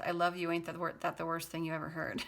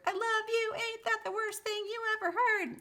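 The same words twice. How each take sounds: First: Said in the usual way. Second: High, loud mock scream. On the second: Reader acting out a desperate love lyric, high screaming. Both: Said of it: "And I scream for whatever it's worth".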